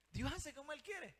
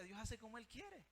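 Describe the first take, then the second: First: Louder, high-pitched preacher's proclamation; emphatic declaration. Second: Said in the usual way. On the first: Real, not acted. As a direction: drive the point home with raised voice. Preacher repeats the point emphatically. (proclamación enfática, en voz alta y aguda)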